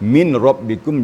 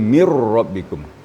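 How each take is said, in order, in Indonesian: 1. Bunyi n diucapkan dengan jelas sebelum r. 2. Bunyi n melebur menjadi bunyi r yang ganda. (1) "Yang tadinya"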